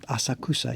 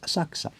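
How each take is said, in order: First: The U between K and S is pronounced. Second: The K and S run together without U. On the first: The speaker calls it wrong. "tourists call it Asakusa. It's not Asakusa" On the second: The speaker calls it right. "Just run the K and the S straight together. You drop the U"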